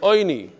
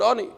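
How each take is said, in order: First: The first vowel sounds like 'oy'. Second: The first vowel sounds like 'ah'. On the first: It is the traditional reading, linked to mourning. "We read it oini" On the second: It is the plain word for poor, as written. "We don't pronounce it ani"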